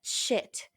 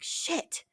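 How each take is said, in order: First: Whispered "Shit" again, softly; breathy hushed "Shit"; muttered curse. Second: Whispered "Shit" under the breath; hushed, unvoiced "Shit"; muttered curse. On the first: Retold or imitated. Repeating the curse for her listener, whispered. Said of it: "you know?". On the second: Muttering a curse to herself, whispered. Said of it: "I'm like".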